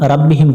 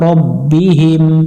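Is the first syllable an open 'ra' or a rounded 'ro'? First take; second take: open ra; rounded ro. First: The first syllable has an open 'ra' sound. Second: The first syllable has a rounded 'ro' sound. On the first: The speaker calls it wrong. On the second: The speaker calls it right.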